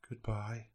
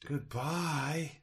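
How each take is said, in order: First: The voice sounds hopeful but defeated. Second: The voice sounds hopeful and believing. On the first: The goal seems unattainable. "Hopeful, yet crushed in the absolute massive task" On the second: The goal seems possible. "Put myself in that position as that character that can"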